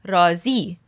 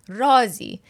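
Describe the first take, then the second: First: The stress is on the second syllable. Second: The stress is on the first syllable. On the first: Satisfied. "If you put the emphasis on the second word, it becomes an altogether different word. رازی means to be satisfied" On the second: A secret. "The emphasis is on the first word"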